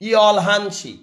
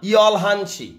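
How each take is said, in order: Both takes have the same delivery.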